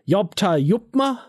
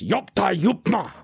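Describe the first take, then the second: First: The voice is smooth and soft. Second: The voice is rough and gravelly. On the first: The speaker calls it wrong. "we soften a lot of the Klingon language" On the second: The speaker calls it right. "you've got to add a bit of graveliness in your voice"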